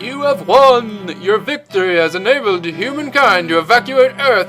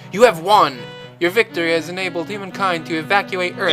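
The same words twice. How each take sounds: First: It is read in a dramatic, theatrical way. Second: It is read in a plain, ordinary way.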